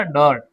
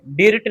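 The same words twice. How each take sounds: First: डर्ट with an "uh" vowel; डर्ट in one syllable, "duhrt"; correct reading. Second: डिर्ट with an "i" vowel, "dirt" as spelt; mispronounced डिर्ट with sounded i; wrong reading. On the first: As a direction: say डर्ट as "durt", i turned to "uh". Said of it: "इसको हम आ पढ़ते हैं". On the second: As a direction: say the i in डिर्ट like "deert". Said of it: "डिर्ट नहीं पढ़ेंगे". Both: Shown as a demonstration.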